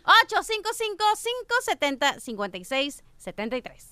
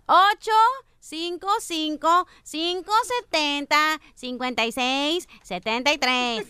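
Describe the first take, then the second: First: The number is said quickly. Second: The number is said slowly.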